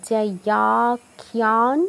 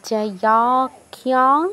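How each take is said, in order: Both takes have the same delivery.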